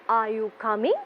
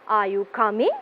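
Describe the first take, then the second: No difference in how they are said.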